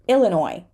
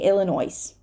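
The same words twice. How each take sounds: First: The final S is silent. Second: The final S is pronounced. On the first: The speaker calls it right. "silent S" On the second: The speaker calls it wrong. "We're not going to say Illinois"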